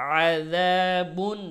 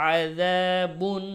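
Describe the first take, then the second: No difference in how they are said.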